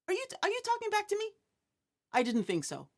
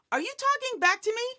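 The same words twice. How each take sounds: First: Fast, higher, then dropping; mock stern parent. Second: Quick, higher mock challenge; mock stern parent. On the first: Parent imitated repeating the challenge to child, mock stern. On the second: Parent imitated challenging child who talks back, mock stern. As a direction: play the parent daring the kid.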